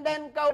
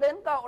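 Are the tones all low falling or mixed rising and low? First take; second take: all falling; mixed. First: Both syllables carry a low falling tone. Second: A high rising tone, then a low glottalized tone. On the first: The speaker calls it wrong. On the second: The speaker calls it right.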